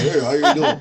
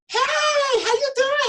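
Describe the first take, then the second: First: It is said in a low, calm voice. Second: It is said in a high, excited voice.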